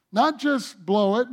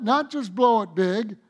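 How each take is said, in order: First: "Not" lifted and held with a rise; preacher stressing "Not" with a rise. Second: "not" held long and rising, "big" added; preacher repeating with a held "not"; stress on not. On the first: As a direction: lean on "Not" and let it rise. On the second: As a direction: stretch "not" and climb. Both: Real, not acted. Preacher builds the point.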